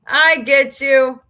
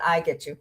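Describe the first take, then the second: First: Louder, slow, drawn-out "I get you"; emphatic repeat. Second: Said in the usual way. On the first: Shown as a demonstration. Reassuring a chatter she understands, slow loud repeat.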